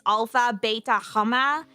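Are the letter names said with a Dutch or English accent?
Dutch. The names are said with a Dutch accent.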